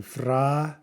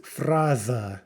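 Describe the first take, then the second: First: Fraza split into FRA, pause, za; syllable by syllable. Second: Said in the usual way. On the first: Shown as a demonstration. Teacher shows the transcription, fraza broken into syllables. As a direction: sound out fraza in two slow, separate syllables. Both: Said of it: "note the transcription".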